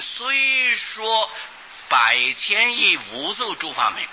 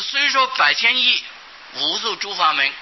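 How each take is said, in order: First: It is read straight through without a pause. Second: It is split in two with a pause. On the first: The number phrase stays joined so the meaning is clear. The speaker calls it right. "念的时候就念成" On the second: The number phrase is cut off and the meaning breaks. The speaker calls it wrong. "把它切成两段的话"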